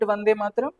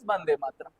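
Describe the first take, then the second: First: The first word begins with a V sound. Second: The first word begins with a B sound. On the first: This is how most other speakers say it. "So we call it Vande Matram" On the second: This is how people in Bengal say it. "They call it as Bande Matram"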